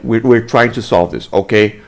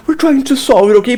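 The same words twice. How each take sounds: First: Composed, lower-pitched reassurance; reasonable officer. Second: High-pitched servile pleading; mock grovelling. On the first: Acted. Officer calming an annoyed citizen, composed and reasonable. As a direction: say it evenly, like a professional cop. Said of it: "this is how a normal human being would react". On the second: Officer placating the man bribing him, high mock begging. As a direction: whine it like a desperate lackey. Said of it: "Instead, he's like".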